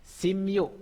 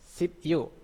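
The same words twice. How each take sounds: First: "sim yu" with p turned into m; high, louder "sim yu" humming through m; as pronounced. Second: "Sip yu" with a stopped p; higher, spelled-out "Sip yu" closing on p; as written. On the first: Teacher shows how it is read, assimilated "sim yu". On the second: Teacher reads the spelling first, unassimilated "Sip yu". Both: Shown as a demonstration.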